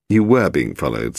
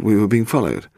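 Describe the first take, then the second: First: "were" punched, the rest falling away; stress on were. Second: Said in the usual way. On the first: A narrator's reading. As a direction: confirm it firmly by leaning on "were".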